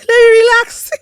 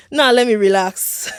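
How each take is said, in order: First: Laughing, higher and louder. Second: Said in the usual way. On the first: Real, not acted. Host laughing at her own excitement, higher and louder. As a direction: laugh through the words. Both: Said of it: "I don't want to hype myself".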